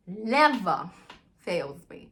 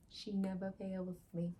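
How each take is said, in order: First: NEVER louder and drawn out, "fails me" dropping; stress on NEVER. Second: Said in the usual way. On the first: Real, not acted. Boasting that my mind is always correct, NEVER punched.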